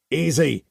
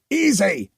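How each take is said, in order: First: Bellowed. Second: Second "easy!" higher and louder, a bellow; "easy!" shouted up hard to stop the attacker; "easy!" as a raised, forceful bellow. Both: Acted. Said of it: "Nathaniel bellowed".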